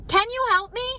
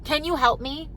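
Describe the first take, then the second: First: Desperate plea. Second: Said in the usual way. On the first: Retold or imitated. Overwhelmed mom begging a friend, high desperate plea. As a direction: beg for help, voice climbing high. I'm about to cry.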